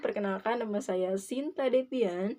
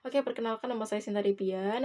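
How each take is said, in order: First: It is said calmly and slowly. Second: It is said hurriedly and fast.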